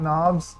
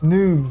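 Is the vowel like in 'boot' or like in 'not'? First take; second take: not; boot. First: The vowel is a short 'o' sound. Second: The vowel is a long 'oo' sound. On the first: The speaker calls it wrong. "not knobs" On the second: The speaker calls it right. "It's noobs"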